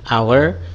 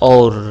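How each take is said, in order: First: The word is said with English pronunciation. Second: The word is read as spelled, letter by letter. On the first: The speaker calls it right. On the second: The speaker calls it wrong.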